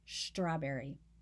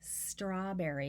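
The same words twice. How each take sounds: First: The word begins with an sh sound. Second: The word begins with a plain s sound. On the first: "with an S H sound at the beginning" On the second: "I say strawberry"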